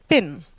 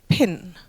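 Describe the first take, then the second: First: The p is released without a puff of air. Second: The p is released with a puff of air. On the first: It means paying by card. "the Dutch pin from paying is without aspiration" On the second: It means a pin in the wall. "while the English version is"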